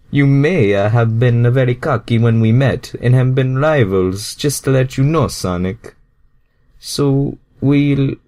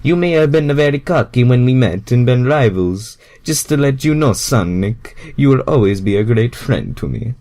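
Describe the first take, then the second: First: Louder, higher earnest Mario; Mario speaking up to his rival. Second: Put-on Mario reassuring his old rival. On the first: Acted. Mario's line, later restarted. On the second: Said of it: "let me restart that line".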